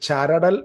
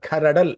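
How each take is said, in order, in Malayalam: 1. ഈ വാക്ക് ch ശബ്ദത്തിലാണ് തുടങ്ങുന്നത്. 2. ഈ വാക്ക് kh ശബ്ദത്തിലാണ് തുടങ്ങുന്നത്. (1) "ചരടൽ എന്ന് വേണമെങ്കിൽ ഇംഗ്ലീഷിൽ വായിക്കാൻ" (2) "സി എച്ചിനെ ഖ എന്ന രീതിയിലും ഉച്ചരിക്കാറുണ്ട്"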